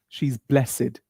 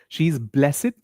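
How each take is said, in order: First: Blessed ends with an 'id' sound, two syllables. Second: The same.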